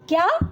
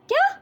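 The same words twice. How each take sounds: First: The word is said in an admiring, pleased tone. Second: The word is said in an astonished, surprised tone. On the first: The speaker is praising and happy about the news. "क्या को हम प्रशंसा सूचक शब्द के रूप में उच्चारित करते हैं" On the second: The speaker is amazed by the news. "आश्चर्य सूचक के रूप में"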